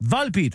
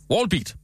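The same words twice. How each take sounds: First: Volbeat said the Danish way, with vol like vold; Danish-style pronunciation. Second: Wallbeat said the English way, like wall-beat; mock-English Wallbeat; English-style pronunciation. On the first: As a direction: spell it out as Danish vol-beat. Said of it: "V O L, siger vold". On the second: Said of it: "Det skal udtales på, øh, engelsk". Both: Shown as a demonstration.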